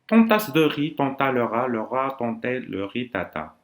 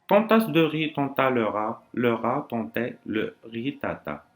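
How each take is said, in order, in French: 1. La phrase se dit le plus vite possible. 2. La phrase se dit à un rythme normal, posé. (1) "le plus vite possible ... De telle manière" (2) "Je répète"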